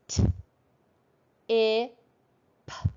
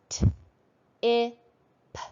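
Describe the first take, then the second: First: The sounds are said slowly and spaced apart. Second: The sounds are said more quickly, closer together. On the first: "slowly at first" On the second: "a little faster this time"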